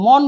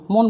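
First: মন with open ɔ, "mawn"; rejected open vowel. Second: মন with rounded o, "mon"; closed o in মন. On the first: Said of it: "মন বলছে না". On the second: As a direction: say মন with the vowel closed to o. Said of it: "মন বলছে". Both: Shown as a demonstration.

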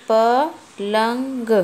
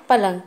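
First: पलंग stretched very slowly, syllable by syllable; drawn-out teacher read; slow sounding out. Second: Said in the usual way. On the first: Shown as a demonstration. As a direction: read पलंग out slowly so a child can follow. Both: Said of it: "तो कैसे पढ़ेंगे?".

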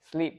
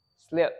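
First: "Sleep" with a tense ee; long I. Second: "Sleep" said as "slip", lax short I. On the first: Teacher reading minimal pairs to learners, long I. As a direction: say "Sleep" with the clear long vowel. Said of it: "âm long I thì ở bên này". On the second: Teacher reading minimal pairs to learners, short I. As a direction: relax the vowel of "Sleep" to make "slip". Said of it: "Âm short I thì ở bên này". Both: Shown as a demonstration.

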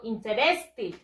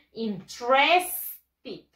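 First: Interested wrongly as "in-te-RES-ti", every vowel sounded; wrong pronunciation. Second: Interested as "in-TRES-tid", slow, drawn out; slow corrected "in-TRES-tid"; correct pronunciation. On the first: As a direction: say "interested" with a full middle e. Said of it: "Yo no digo". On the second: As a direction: drop the middle e, stretch TRES in "interested". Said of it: "No, yo digo". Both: Shown as a demonstration.

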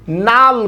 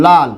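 First: নাল with initial n for l; Rangpur-style "nal" in place of "lal", as in নাল; Rangpur pronunciation. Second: লাল as "lal", starting with l; as written. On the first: Teacher shows Rangpur speech, starting নাল with n. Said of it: "Rangpur অঞ্চলের অনেক ভাই বোনরা কি বলে?". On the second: Teacher repeats what was written, starting with l. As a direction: begin লাল on a clear l sound. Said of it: "কি লিখলাম বলুন তো?". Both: Shown as a demonstration.

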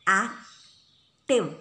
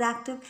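First: "Active" broken in two, ac-tive, with a gap; split into syllables. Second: Said in the usual way. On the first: Shown as a demonstration. Teacher showing students how to count syllables, "Active" said syllable by syllable. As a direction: say "Active" one loud, separate syllable at a time. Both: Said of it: "just pronounce the word active".

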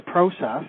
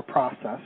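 First: "process" with a long O, PROH-sess; first vowel of "process" like "pro"; long-O pronunciation. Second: "process" with an open AH, PRAH-sess; American-style "process", first vowel as in "prod"; short-O pronunciation. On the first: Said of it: "or process, depending on what country". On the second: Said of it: "depending on what country you're in". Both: Shown as a demonstration.

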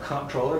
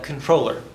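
First: Comptroller said as comp-TROL-ler with the mp sounded; wrong pronunciation. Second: Controller said plainly as con-TROL-ler, no p sound; correct pronunciation. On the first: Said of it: "which is not correct". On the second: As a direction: say controller the right way, like the French original. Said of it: "when you say it in, in French, it actually sounds like". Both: Shown as a demonstration.

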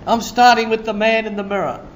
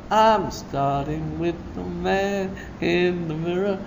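First: Said in the usual way. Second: Much softer, hushed repeat of the line; soft echo. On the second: Acted. Preacher echoing his own line, softly.

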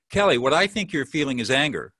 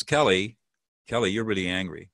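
First: Tentative interpretation. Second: Name the feeling straight and calm; direct label. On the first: Coach demonstrating the hedged version to host, tentative. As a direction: hedge it like a textbook listener. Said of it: "let me just experiment here". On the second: Coach demonstrating the direct version to host, calm and firm. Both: Shown as a demonstration.

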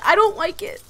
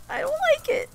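First: Upset and a bit high, "don't" stressed. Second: Much higher, softer whiny squeak, "don't" stretched. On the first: Player upset that Naya is hurt, leaning on "don't". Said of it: "I am so emotional". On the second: Player repeats her worry about Naya as a high whimper. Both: Real, not acted.

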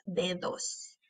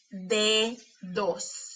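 First: Said in the usual way. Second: "Dedos" slowly as de, pause, dos; split into syllables. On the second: Shown as a demonstration. Teacher showing teeth closing the syllable, syllable by syllable. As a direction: separate both syllables of "Dedos". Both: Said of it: "para ver cuáles de esas sílabas".

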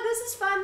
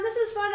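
First: High, soft singsong "this is fun"; hammed-up forced glee; mock cheer. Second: High, soft "this is fun" with weight on "is"; hammed-up strained glee; mock cheer again. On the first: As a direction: chirp it brightly, faking delight. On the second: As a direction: insist on the fun, a touch hollow. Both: Mocking the girl's forced joy.

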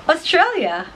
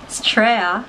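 First: Said in the usual way. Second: "Australia" said as "Straya"; shortened Aussie pronunciation. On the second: Shown as a demonstration. Explaining slang to viewers, "Australia" shortened to Straya. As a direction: drop the first syllable and the L of "Australia". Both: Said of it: "is Australia".

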